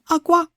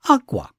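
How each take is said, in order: First: Both syllables are said on a high pitch. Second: The first syllable is high, the second low. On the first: The word means cry. "both syllables are high" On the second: The word means cloth. "If the first syllable is high and the second syllable is low"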